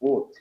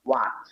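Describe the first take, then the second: First: A British accent, with a rounded vowel held back. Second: An American accent, with an open vowel pushed forward. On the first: "মুখের ভেতরে নিয়ে বলবে উড" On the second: "আমেরিকানরা সরাসরি ওয়া, ওয়াট বলবে"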